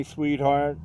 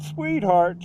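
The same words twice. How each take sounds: First: Said in the usual way. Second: Southern drawl, pitched a little higher; southern echo. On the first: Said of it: "I said". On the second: Retold or imitated. Woman echoes his word, Southern accent. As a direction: echo it back in a Southern lilt. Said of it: "she said this in this southern".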